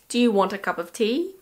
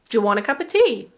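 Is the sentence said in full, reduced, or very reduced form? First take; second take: reduced; very reduced. First: Words are shortened and run together quickly. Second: Words are shortened even more, very quickly. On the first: "We would say" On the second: "Or even"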